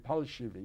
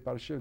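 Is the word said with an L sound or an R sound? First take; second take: L sound; R sound. First: The word is said with an L sound. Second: The word is said with an R sound. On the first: "they would say palshivi, you know, like children cannot pronounce the R" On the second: "They couldn't say palshivi"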